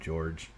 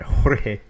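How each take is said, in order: First: The name sounds like English George. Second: The name is said with its official, non-English pronunciation. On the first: "Should I be pronouncing that name George?" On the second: "I can do it"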